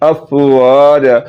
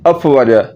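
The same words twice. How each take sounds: First: The vowel after the w is long. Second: The vowel after the w is short. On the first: The speaker calls it right. "आपने जबर को लंबा करना है" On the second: The speaker calls it wrong. "जबर जो वाव के ऊपर थी हमने उसको लंबा नहीं किया"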